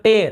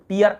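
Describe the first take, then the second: First: टेयर, rhyming with "air"; ay-er vowel. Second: टीयर, rhyming with "ear"; ee-er vowel. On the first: Teacher separating two meanings for students, टेयर with "ay-er". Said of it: "ऐसे टेयर पढ़ते हैं". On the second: Teacher separating two meanings for students, टीयर with "ee-er". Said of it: "टीयर आंसू होता है". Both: Shown as a demonstration.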